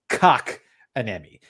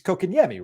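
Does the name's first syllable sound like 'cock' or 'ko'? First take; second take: cock; ko. First: The first syllable sounds like the word cock. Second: The first syllable sounds like ko, not cock. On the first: The speaker calls it wrong. "the Cock-a-nemi" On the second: The speaker calls it right. "It's it's Kokanyemi, right?"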